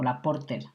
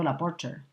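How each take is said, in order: First: Porter is pronounced with a Spanish accent. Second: Porter is pronounced the English way.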